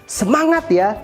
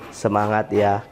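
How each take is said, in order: First: It is said with lively pitch and emphasis. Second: It is said flatly, with little energy. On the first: The speaker sounds truly encouraging. The speaker calls it right. "Jadi intonasi harus bermain, kecepatan suara harus bermain, penekanan juga harus bermain ya" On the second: The speaker does not sound truly encouraging. The speaker calls it wrong. "kira-kira semangat nggak? Semangat ya, enggak ya"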